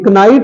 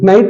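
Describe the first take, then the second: First: A K sound is heard before the N. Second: The word starts straight with the N sound. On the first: The speaker calls it wrong. "ये कनाइट नहीं है" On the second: The speaker calls it right. "के इसमें silent है तो ये केवल नाइट है"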